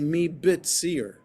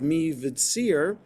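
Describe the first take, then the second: First: The consonant after 'mi' is a hard B. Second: The consonant after 'mi' is a soft V. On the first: "to make it a B sound" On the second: "me vitzir sounds a little softer"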